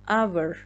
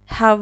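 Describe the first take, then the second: First: The word begins directly with a vowel sound. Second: The word begins with an audible h sound. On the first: The speaker calls it right. "اچ اینجا سایلنته" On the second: The speaker calls it wrong. "hour نباید بگیم"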